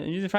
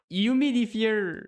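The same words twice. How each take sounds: First: Humidifier tossed off fast in one quick breath. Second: Humidifier drawn out slowly with a higher, careful English pronunciation; English word humidifier. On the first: Showing how you'd blurt the word in a hurry, quick and casual. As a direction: blurt humidifier without thinking. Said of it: "vite, tu vas dire". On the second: Explaining the English word for humidificateur, slow and careful. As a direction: spell out humidifier syllable by syllable in English. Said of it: "En anglais, c'est humidif". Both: Shown as a demonstration.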